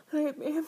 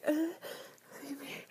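First: Feed me said louder and higher; loud plea. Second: Whispered plea. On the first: Louder take of repeated plea. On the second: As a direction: whisper feed me, begging. Whispered take of repeated plea. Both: Acted.

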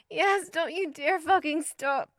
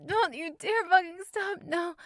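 First: High, loud, slow demand; breathless high pleading; slow insistent demand. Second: High, loud, rushed demand; urgent high pleading; quick urgent demand. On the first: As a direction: drag each word out, begging him not to stop. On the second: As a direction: spit it out fast and urgent. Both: Acted. Demanding during climax.

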